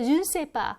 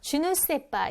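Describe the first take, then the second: First: The 'ne' syllable is left out entirely. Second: The 'ne' syllable is fully pronounced. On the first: This is how people often say it in everyday French. "늘 생략하고서 발음할 때도 많아요. 그래서 준세빠 이럴 때도 많고요" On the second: People often do not say it this way in everyday French. "주누세빠 이렇게 안 할 때도 많습니다"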